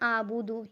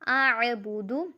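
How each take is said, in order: First: It starts with a plain glottal stop sound. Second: It starts with a deep throaty ain sound. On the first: The speaker calls it wrong. "ये गलत है, क्योंकि आबूदू ऐसे है जैसे अलिफ के साथ आप अलिफ को मिला रहे हैं" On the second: The speaker calls it right. "आइन ज़बर आ"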